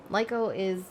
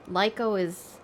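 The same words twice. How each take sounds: The two takes are said the same way.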